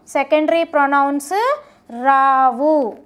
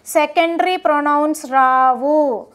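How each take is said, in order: First: Rao drawn out very slowly at the end; slow emphatic repeat. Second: Said in the usual way. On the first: Shown as a demonstration. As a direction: drag out Rao so it sticks. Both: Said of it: "గుర్తుపెట్టుకోండి".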